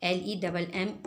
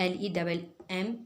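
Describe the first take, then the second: No difference in how they are said.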